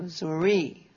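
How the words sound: The word has a French pronunciation. "they pronounced words that they heard the French way"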